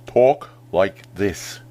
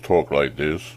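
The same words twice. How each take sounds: First: The words are spoken with exaggerated mouth movement. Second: The words are spoken with little mouth movement. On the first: The speaker calls it right. "Exaggerate those mouth movements yourself to copy him" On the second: The speaker calls it wrong. "don't just talk like this"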